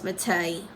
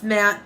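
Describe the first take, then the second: First: "Matte" read as it looks, ending in "tay"; spelling pronunciation. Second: Said in the usual way. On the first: Shown as a demonstration. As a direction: say "Matte" as "ma-TAY", two syllables. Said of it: "looks like it's spelled". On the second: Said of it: "It's pronounced matte".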